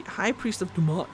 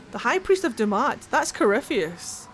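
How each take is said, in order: First: Said in the usual way. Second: Surprised. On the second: Real, not acted. Recognises a name mid-reading.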